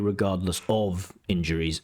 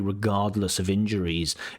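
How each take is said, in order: First: The word of is fully pronounced. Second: The word of is short with a schwa. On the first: The speaker calls it wrong. "It shouldn't be" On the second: The speaker calls it right. "it should be ... that short, weak form of of"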